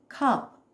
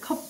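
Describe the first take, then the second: First: The final p is released with a puff of air. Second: The lips close and the final p is unreleased. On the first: This is how English speakers say it. "이렇게 공기를 내보내요" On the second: This is how Korean speakers say it. "입을 다물어 버리거든요"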